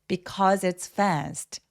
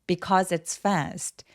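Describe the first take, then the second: No difference in how they are said.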